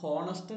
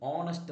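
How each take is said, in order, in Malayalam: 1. ഈ വാക്ക് h ശബ്ദത്തിലാണ് തുടങ്ങുന്നത്. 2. ഈ വാക്ക് നേരിട്ട് സ്വരാക്ഷര ശബ്ദത്തിലാണ് തുടങ്ങുന്നത്. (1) "അത് ഹോണസ്റ്റ് എന്നല്ല പറയേണ്ടത്" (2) "അവിടെ എച്ച് സൈലൻ്റ് ആണ്, അത് പറയുന്നത് ഓണസ്റ്റ് എന്നാണ്"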